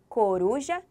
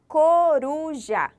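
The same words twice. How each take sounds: First: The word is said at a normal pace. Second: The word is said slowly and deliberately.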